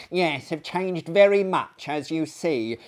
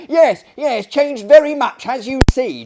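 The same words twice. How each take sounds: First: A hint of an eager lunatic echoing; interrupting gentleman. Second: Much louder and higher parroting; excited echo. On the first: A lunatic guest cutting in at dinner, lightly voiced. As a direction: butt in repeating the host. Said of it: "here interrupted the gentleman". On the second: Acted. A lunatic echoing the host loudly, excited. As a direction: bark the words back gleefully.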